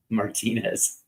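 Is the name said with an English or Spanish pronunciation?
Spanish. The name is said with Spanish pronunciation. The speaker calls it right.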